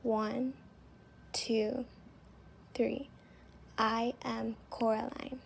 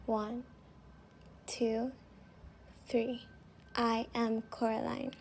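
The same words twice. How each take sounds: The two takes are said the same way.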